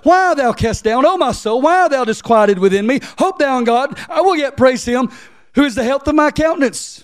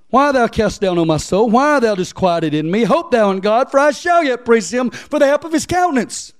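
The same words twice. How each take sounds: First: Higher, louder preached verse; preacher reading verse eleven, rising; preaching scripture. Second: Raised, loud Bible reading; preacher reading verse five; scripture reading. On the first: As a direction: lift the verse like a sermon climax. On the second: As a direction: proclaim the psalm verse. Reads verse five aloud. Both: Acted.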